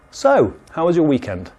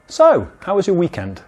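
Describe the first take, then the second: First: So lifted a touch, then a falling question; high So. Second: So pitched high, then the question. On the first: Teacher repeats the high-So small talk opener. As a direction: start high on So, ease down. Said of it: "the intonation is quite high". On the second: Teacher demos small talk with a high So. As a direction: lift So high before asking. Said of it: "listen to the way I say it". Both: Shown as a demonstration.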